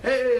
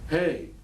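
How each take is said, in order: First: It is said with lively, excited energy. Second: It is said flat, hesitant and apologetic. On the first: The speaker feels confident and enthusiastic. The speaker calls it right. "They're excited" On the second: The speaker expects not to be wanted. The speaker calls it wrong. "your lack of voice inflection"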